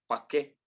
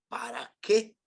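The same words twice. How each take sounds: First: Para is worn down to a shortened form. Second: Both syllables of para are said fully. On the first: "Ya nada más decimos" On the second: "cuando decimos"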